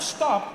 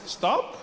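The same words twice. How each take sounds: First: It sounds like a firm command. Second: It sounds like a gentle suggestion.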